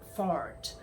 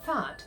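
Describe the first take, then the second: First: It is said with an American accent. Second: It is said with an Australian accent. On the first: "like Americans kind of say fart" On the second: "it has to be the Aussie way"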